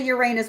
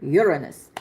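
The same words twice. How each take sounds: First: "Uranus" said as your-AY-nus; long AY in the middle of "Uranus"; giggle-prone pronunciation. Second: "Uranus" said as YUR-uh-nus; lower, falling "Uranus" with no AY sound; careful alternative pronunciation. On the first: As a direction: stress the second syllable of "Uranus", like "your anus". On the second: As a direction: stress the first syllable of "Uranus", weak middle vowel. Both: Shown as a demonstration. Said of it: "cannot say Uranus without laughing".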